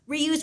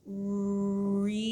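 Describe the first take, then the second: First: It is said quickly. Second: It is said slowly and drawn out.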